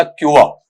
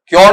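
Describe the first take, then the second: First: "क्योर" as kyu-uh, no r; correct pronunciation. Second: "क्योर" as flat kyo without the uh; wrong pronunciation. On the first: Teacher builds the word for students, pronounced correctly. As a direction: say "क्योर" gliding into uh. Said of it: "उसके बाद में यहां पर चलेगा". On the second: Teacher rejects this reading, mispronounced on purpose. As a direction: say "क्योर" with an o vowel, no glide to uh. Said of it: "क्योर नहीं". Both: Shown as a demonstration.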